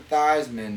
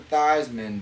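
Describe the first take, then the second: First: The name rhymes with Heisman. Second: The same.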